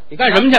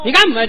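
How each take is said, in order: First: It is said in standard Mandarin. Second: It is said in a local dialect form. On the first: "干什么不叫干什么" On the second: "他叫干么去"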